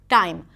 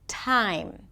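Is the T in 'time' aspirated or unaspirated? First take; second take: unaspirated; aspirated. First: The T is released with little or no air. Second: The T is released with a strong puff of air. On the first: "it's not always aspirated. So then the word time might sound like time" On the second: "The T is usually aspirated"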